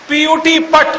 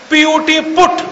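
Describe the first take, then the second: First: "पट" with the uh of cut; u in "पट" sounded as uh, not oo; mock-logical pronunciation. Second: Said in the usual way. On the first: Shown as a demonstration. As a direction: say "पट" to rhyme with cut. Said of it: "होना चाहिए". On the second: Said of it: "पीयूटी पुट तो BUT बुट क्यों नहीं".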